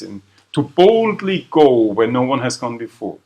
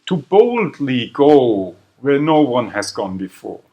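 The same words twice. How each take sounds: First: "boldly" stressed once more, a touch lighter. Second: Slow, weighty line with the stress on "boldly". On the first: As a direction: land "boldly" clearly as the split word. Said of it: "That's your split infinitive". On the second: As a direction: give "boldly" the weight of a famous slogan. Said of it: "They go boldly". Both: Shown as a demonstration.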